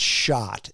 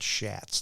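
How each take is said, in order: First: The vowel sounds like the one in 'hot'. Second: The vowel sounds like the one in 'hat'. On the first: The speaker calls it right. "It's it's shot" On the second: The speaker calls it wrong. "It's not Schatz like you're taking a shat"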